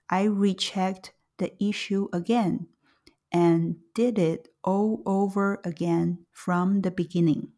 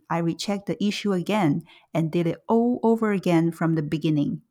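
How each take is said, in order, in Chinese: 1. 语速很慢，说得很刻意。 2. 语速正常，和日常对话一样。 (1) "接下来是慢速版" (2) "先是正常语速"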